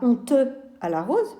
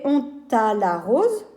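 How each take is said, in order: First: The final e of honte is sounded. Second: The final e of honte is silent. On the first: The speaker calls it wrong. "On ne dira pas" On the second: The speaker calls it right. "on dirait"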